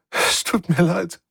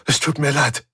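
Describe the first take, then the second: First: High, slow, crying voice; tearful apology. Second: Said in the usual way. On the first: Acted. Svensson weeps as she apologises, tearful. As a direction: apologise through tears. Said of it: "Sie begann wieder zu weinen". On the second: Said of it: "sagte sie".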